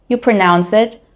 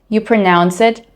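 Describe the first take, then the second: No difference in how they are said.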